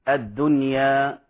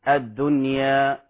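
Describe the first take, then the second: The two takes are said the same way.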